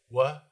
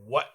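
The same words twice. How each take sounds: First: The final T is dropped or barely heard. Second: The final T is clearly pronounced. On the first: "the lazy T, ... we just say what" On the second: "instead of what or what or what"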